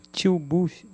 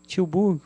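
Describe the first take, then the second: First: "Tilbuch" with a guttural ch ending, t͡ʃibuʃ; playfully Dutch-ify the city name "Tilbuch"; mock Dutch pronunciation. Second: "Tilburg" said the Brazilian way, t͡ʃiubuɡ with an r-less ending; Dutch place name. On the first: Greeting a viewer in Holland, joking Dutch-style "Tilbuch". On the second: Reading out a viewer's city, "Tilburg" spelt-out attempt. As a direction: read "Tilburg" as spelt, Portuguese sounds. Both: Shown as a demonstration. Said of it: "Tilbuch é ótimo".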